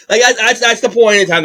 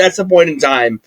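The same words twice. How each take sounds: First: Higher, mock Alberta accent on "that's the point in time". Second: Said in the usual way. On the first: Shown as a demonstration. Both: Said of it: "That's my best Alberta accent".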